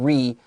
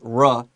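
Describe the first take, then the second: First: The prefix has a long 'ree' vowel. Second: The prefix has a short, clipped vowel. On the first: The speaker calls it wrong. "not re" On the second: The speaker calls it right. "the pronunciation here is r"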